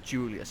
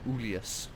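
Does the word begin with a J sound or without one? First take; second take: J sound; no J. First: The word begins with a J sound. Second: The word begins without a J sound. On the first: The speaker calls it wrong. "Julius wasn't pronounced Julius" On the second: The speaker calls it right. "it was pronounced like Ulius"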